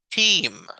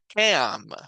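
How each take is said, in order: First: Only a long E vowel is sounded. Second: Both vowels are sounded separately. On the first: The speaker calls it right. "sino es team. La A es muda y la E es la única que conserva el sonido largo" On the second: The speaker calls it wrong. "no se pronuncia"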